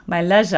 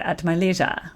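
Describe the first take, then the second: First: "leisure" said as LEZH-uh; imitated British LEZH-uh for "leisure"; British-style leisure. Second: "leisure" said as LEE-zhur; American LEE-zhur for "leisure"; leisure with long E. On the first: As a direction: say "leisure" with a short e, rhyming with pleasure. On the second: Shown as a demonstration. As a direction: say "leisure" with a long ee in the first syllable. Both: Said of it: "as you guys say".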